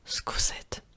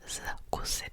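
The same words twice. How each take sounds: First: The word begins with a voiceless s sound. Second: The word begins with a voiced z sound. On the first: The speaker calls it right. "z is turning into s" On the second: The speaker calls it wrong. "I'm not saying zkusit. It's very hard to say"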